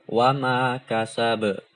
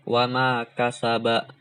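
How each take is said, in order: First: The final word ends on a bare consonant. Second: The final word ends with a short vowel. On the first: The speaker calls it right. "kita sukunkan" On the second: The speaker calls it wrong. "nggak boleh dibaca ketika kita waqaf"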